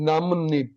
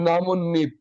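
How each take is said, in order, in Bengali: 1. একটি 'n' ধ্বনি অংশগুলোকে 'nip' হিসেবে যুক্ত করে। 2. একটি 'n' ধ্বনি অংশগুলোকে 'nip' হিসেবে যুক্ত করে।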